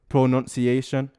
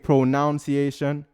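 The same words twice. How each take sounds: First: The second syllable sounds like 'nun'. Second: The second syllable sounds like 'noun'. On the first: This is the correct form. The speaker calls it right. "but it's pronunciation" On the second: This is how the speaker usually says it. The speaker calls it wrong. "I say pronunciation"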